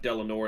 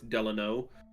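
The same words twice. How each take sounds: First: The name is said with an R sound. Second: The name is said without an R sound. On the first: The speaker calls it wrong. "he is not Delano" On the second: The speaker calls it right. "it's Delano Roosevelt. There's no R"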